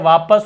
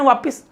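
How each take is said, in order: First: The second syllable has an 'a' vowel. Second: The second syllable has an 'i' vowel. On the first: The speaker calls it right. "वापस होगा।" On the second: The speaker calls it wrong. "छोटी की मात्रा गलत है"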